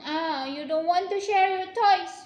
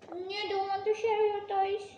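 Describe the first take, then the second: First: Loud teasing reproach, falling on toys; loud mock scold. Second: Said in the usual way. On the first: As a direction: tease them loudly for not sharing. Parent scolding about sharing.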